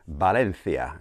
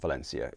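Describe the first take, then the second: First: The name is said with a Spanish pronunciation. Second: The name is said with an English pronunciation. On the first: "as you say in Spanish" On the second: "if you don't want to say it in Spanish"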